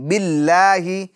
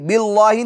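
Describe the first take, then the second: First: The L is pronounced thin and light. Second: The L is pronounced thick and heavy. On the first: The speaker calls it right. "बारीक होगा" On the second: The speaker calls it wrong. "नहीं"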